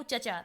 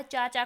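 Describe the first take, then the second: First: चचा with a short first vowel; dropped long vowel. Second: Said in the usual way. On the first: Shown as a demonstration. Teacher quoting a child, चचा with shortened vowel. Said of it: "स्वर का लोप कर दिया". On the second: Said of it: "बच्चा क्या कहता है".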